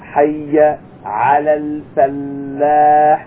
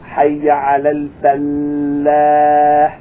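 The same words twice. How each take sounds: No difference in how they are said.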